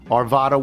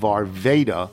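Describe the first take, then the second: First: The middle vowel is a flat A. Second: The middle vowel is a long A. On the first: The speaker calls it right. "with the central A being flat" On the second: The speaker calls it wrong. "the long A of Arvada"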